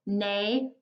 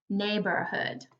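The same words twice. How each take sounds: First: "Neighborhood" in three separate beats, neigh, bor, hood; split into syllables. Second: Said in the usual way. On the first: Shown as a demonstration. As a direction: pause after each syllable of "Neighborhood". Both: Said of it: "Neighborhood has three syllables".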